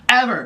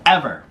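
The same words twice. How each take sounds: First: Ever said high and falling, repeated for emphasis; stress on Ever. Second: Said in the usual way. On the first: Shown as a demonstration. To viewers about never doing spaghetti, stressing Ever. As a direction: hit Ever much higher the second time.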